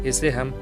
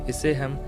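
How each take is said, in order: No difference in how they are said.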